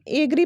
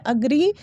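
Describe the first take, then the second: First: एग्री with a long "ay" start; wrong pronunciation. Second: अग्री with a short "uh" start; correct pronunciation. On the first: Teacher citing day to day usage, wrong pronunciation. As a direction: say एग्री as AY-gree. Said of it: "बिल्कुल ही गलत pronunciation". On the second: Teacher correcting daily usage, correct pronunciation. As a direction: say अग्री as uh-GREE. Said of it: "correct pronunciation है". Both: Shown as a demonstration.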